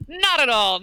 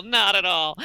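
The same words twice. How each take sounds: First: NOT said high and stressed; emphatic denial. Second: Said in the usual way. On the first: Shown as a demonstration. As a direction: lean on not in not at all.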